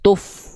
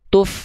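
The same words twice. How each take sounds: First: The f keeps the rounded lips of the u. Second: The f is said with normal, unrounded lips. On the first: The speaker calls it wrong. "bibir fa-nya masih gini" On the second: The speaker calls it right. "Kembalikan kepada keadaan normal"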